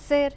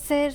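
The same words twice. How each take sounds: No difference in how they are said.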